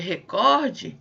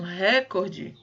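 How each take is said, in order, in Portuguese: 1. A tonicidade está na segunda sílaba. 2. A tonicidade está na primeira sílaba. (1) "ao invés de recorde" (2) "quando vocês usam recorde, ... eu tenho aí um problema de prosódia"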